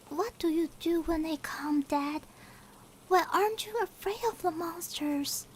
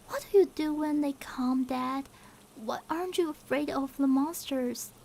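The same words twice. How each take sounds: First: It is read in a put-on little-girl voice. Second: It is read in the reader's normal voice.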